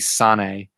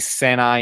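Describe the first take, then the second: First: The name ends with an 'ay' sound. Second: The name ends with an 'eye' sound. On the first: This follows the Japanese reading of the name. The speaker calls it right. "so it would be Sane" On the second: This is how the group usually says it. The speaker calls it wrong. "we say Senai"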